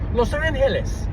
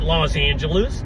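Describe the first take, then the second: First: The name is said with Spanish pronunciation. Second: The name is said with English pronunciation. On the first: "the correct pronunciation is Los Angeles. That's the correct pronunciation, but it's Spanish" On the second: "You can call it Los Angeles, and you can anglicize it"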